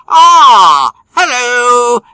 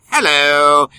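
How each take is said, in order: First: Put-on "hello" in a much higher, louder English accent; a posh English "hello" greeting. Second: Said in the usual way. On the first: Host greets co-host in a hammed-up English accent. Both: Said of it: "Don't know why the English accent".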